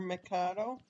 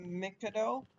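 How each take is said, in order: First: Mikado as "muh-KAH-doh"; second pronunciation. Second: Mikado as "MICK-uh-doh"; first pronunciation. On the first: Player adding the other version, Mikado as muh-KAH-doh. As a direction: say Mikado with stressed middle KAH, rising as a question. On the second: Player asking about restorations, Mikado as MICK-uh-doh. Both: Real, not acted. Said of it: "both ways".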